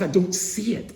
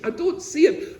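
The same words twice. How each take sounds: First: "don't" pushed up and held in a pleading rise; I "don't" see it, the pleading word hit first; stress on don't. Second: "see" leaps much higher in a rising plea; I don't "see" it, anguished rise on "see"; stress on see. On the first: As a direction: lean on "don't" as if protesting. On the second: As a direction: throw the cry onto "see". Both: Retold or imitated. David's anguished plea to God.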